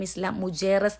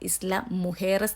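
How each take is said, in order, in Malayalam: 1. നടുവിലെ വ്യഞ്ജനം j ശബ്ദമാണ്. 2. നടുവിലെ വ്യഞ്ജനം h ശബ്ദമാണ്. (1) "വായിക്കുമ്പോൾ നമ്മൾ വിചാരിക്കും" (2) "അവർ പ്രൊനൗൺസ് ചെയ്യുന്നത്"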